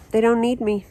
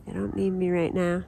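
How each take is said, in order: First: Said in the usual way. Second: Softer, a little wistful; quiet. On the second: Real, not acted. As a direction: let it drop, resigned.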